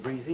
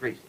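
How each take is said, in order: First: It is said in the southern way. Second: It is said in the Atlantic-seaboard way. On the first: This is how the speaker actually says it. "I say greasy ... but it's southern" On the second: This is the form one would expect from the speaker. "instead of"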